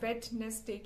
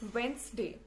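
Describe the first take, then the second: First: The first 'd' sound is pronounced. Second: The first 'd' sound is left out. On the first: The speaker calls it wrong. "बहुत सारे बच्चे इसे वेडनेसडे कहते हैं" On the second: The speaker calls it right. "डी हटा दो"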